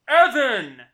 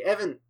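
First: Sudden loud bellow of EVAN; name yelled in all caps; shouted name. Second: Half-hearted call of Evan, higher but not loud; held-back mock yell; restrained shout. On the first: Acted. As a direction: belt out the name Evan like a hype announcer. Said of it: "Evan, just really loudly". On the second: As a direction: call out the name without waking the neighbors. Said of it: "I can't shout too loud".

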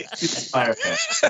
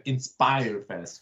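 First: Inspire Fest, slow, high and laughing in a mock French accent; hammed-up French accent. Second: Inspire Fest said slowly in a French accent; drawn out, trying a French accent on Inspire Fest. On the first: Retrying the festival name for his cohost, mock French. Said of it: "That didn't sound French at all". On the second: Showing the cohost the name with a French accent. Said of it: "You have to say it with a French, French accent". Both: Shown as a demonstration.

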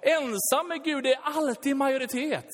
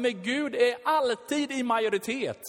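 First: 2 higher, stress on är and alltid; 3 drive the line home a second time; 1 emphatic repeat. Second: 2 alltid stressed, said in the preaching voice; 3 state it firmly once; 1 first statement. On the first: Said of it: "Jag säger det en gång till för det är riktigt bra". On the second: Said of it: "Jag säger det en gång till". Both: Shown as a demonstration.

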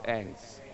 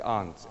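First: "ants" with a short front a; short-vowel ants. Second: "Ants" with a long ah, like "ahnts"; broad-vowel ants. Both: Shown as a demonstration. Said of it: "saying it in the right accent".

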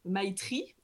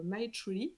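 First: Slow, careful English with French accent; "My Tree" re-articulated with French-accented R; French-accented English retry. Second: Slow, fumbled English in a French accent; "My Tree" slurred with a French accent. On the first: Host retrying after apologising, careful French-accented English. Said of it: "pardon pour cet accent". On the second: Host attempting the programme's English name, French-accented English. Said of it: "toujours en anglais, pardon pour cet accent". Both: Real, not acted.

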